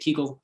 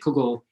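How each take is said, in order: First: It has a Galitzianer Yiddish vowel. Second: It has a Litvak Yiddish vowel. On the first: "Hagrid would say Kegel" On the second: "McGonagall would say Kugel"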